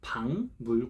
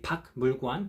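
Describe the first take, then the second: First: The first syllable ends in an ng sound. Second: The first syllable ends in a k sound. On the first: The speaker calls it right. "we pronounce it as 방물관" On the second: The speaker calls it wrong. "We don't say 박물관"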